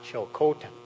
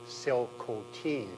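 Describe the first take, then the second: First: The name begins with a ch sound. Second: The name begins with an s sound. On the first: The speaker calls it wrong. "not Chilcotin" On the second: The speaker calls it right. "the correct pronunciation is actually Silcotin"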